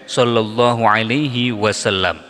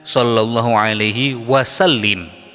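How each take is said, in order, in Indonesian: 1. Kata terakhir berakhiran bunyi 'lam'. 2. Kata terakhir berakhiran bunyi 'lim'. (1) "Jadi yang betul" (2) "kadang-kadang orang salah membacanya dengan"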